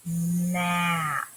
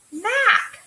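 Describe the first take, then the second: First: Stretched map; slow blend. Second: High, loud bright map; teacher finally getting it; quick discovery. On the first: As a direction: draw it out slowly. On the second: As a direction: pop the word out in recognition. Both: Shown as a demonstration. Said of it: "a little bit faster each time".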